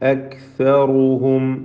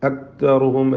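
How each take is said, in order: First: The k sound is held clearly without echo. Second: The k sound is not heard at all. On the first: The speaker calls it right. "വ്യക്തമാക്കി ഓതുക" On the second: The speaker calls it wrong. "കാഫ് അല്പം പോലും ശബ്ദിക്കാതെ കേൾക്കാതെ"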